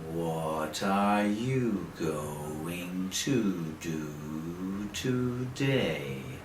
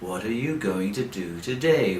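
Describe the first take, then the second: First: The sentence is spoken very slowly. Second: The sentence is spoken quickly. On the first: "you speak very slowly" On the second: "A little faster and faster and faster. Like this"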